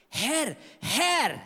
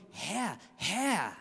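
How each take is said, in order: First: Both Herr called out high and urgent, a desperate plea at the door; pleading cry. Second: Herr, Herr said softer, a weighty rhetorical address; rhetorical emphasis. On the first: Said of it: "diese zwei Worte so stark betont". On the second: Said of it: "eher eine Betonung, so eine rhetorische Betonung". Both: Retold or imitated.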